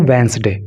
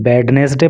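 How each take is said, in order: First: वेंसडे in two syllables, first D silent; correct Wednesday. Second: वेडनेसडे with the first D sounded; mispronounced Wednesday. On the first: Teacher giving students the right pronunciation, वेंसडे with silent D. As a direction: drop the D, say वेंसडे as WENZ-day. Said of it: "और इसको बोलते हैं वेंसडे". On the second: Teacher showing students the common misreading, वेडनेसडे with D sounded. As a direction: say वेडनेसडे as spelt, D and middle E voiced. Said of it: "इसको कई लोग वेडनेसडे पढ़ते हैं". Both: Shown as a demonstration.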